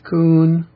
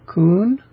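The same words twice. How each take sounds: First: The pitch of the word stays level throughout. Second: The pitch of the word moves, not level. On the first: The speaker calls it right. "It's Kun with an even pitch" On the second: The speaker calls it wrong.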